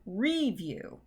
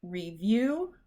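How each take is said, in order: First: REVIEW wrongly said RE-view, slowly; slow RE-view with weight up front; stress on RE. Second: REVIEW said slowly as re-VIEW, rising; slow re-VIEW with weight at the end; stress on VIEW. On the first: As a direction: lean hard on the first syllable of REVIEW. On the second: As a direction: lean on the second syllable of REVIEW. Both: Shown as a demonstration. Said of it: "that first one is right".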